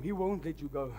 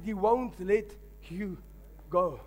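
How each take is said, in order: First: Said in the usual way. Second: "He won't let" pushed up, then "you" and "go." each set apart by pauses; dramatic pauses; slow, spaced emphasis. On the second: Shown as a demonstration. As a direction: let each word land on its own. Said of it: "I said".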